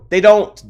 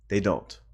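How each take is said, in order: First: Sudden loud high burst; outburst. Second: Quiet low repeat; muttered. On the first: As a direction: blurt it out hard. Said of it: "loud repeat". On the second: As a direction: say it under your breath. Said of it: "quiet repeat vs loud". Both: Real, not acted.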